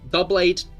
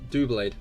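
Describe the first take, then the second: First: The name begins with a two-syllable 'double'. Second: The name begins with a one-syllable 'do'. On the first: The speaker calls it wrong. "Double Blade doesn't sound right" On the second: The speaker calls it right. "More satisfying"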